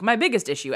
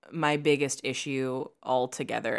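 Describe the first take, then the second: First: "biggest" pushed up and hit hard, mocking her own habit; stress on biggest. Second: Said in the usual way. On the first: Shown as a demonstration. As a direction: quote yourself, punching "biggest". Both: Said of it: "I know I've said ... at least six times today".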